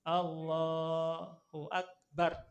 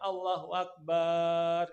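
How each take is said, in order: First: The vowel in the first word is drawn out. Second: The vowel in the last syllable is drawn out. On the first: The speaker calls it right. "Yang dipanjangkan adalah Allah, gitu ya. ... Yang lainnya pendek" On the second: The speaker calls it wrong. "Yang dipanjangin barnya ada Allahu Akbar. Ini nggak boleh"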